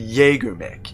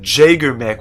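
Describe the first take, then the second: First: The word begins with a Y sound. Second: The word begins with a J sound. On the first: The speaker calls it right. "it's actually" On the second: The speaker calls it wrong. "you were the one who said"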